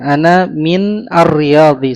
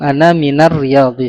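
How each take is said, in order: First: The word min is said separately, ending in n. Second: The word min runs straight into the next word. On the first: This is the underlying form before joining. "Ana min asalnya" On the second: This is the connected form used in speech.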